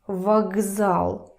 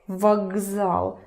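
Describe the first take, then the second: First: The consonant before z is a voiced g. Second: The consonant before z is a voiced g.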